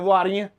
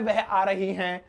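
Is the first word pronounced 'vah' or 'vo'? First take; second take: vo; vah. First: The first word is pronounced 'vo'. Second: The first word is pronounced 'vah'. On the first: It is everyday spoken language. The speaker calls it right. "ऐसे बोलते, वो बोलते हैं हम अपनी देसी भाषा में" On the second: It is bookish written language. The speaker calls it wrong. "वह तो किताबी भाषा है, ... ऐसे नहीं बोलते"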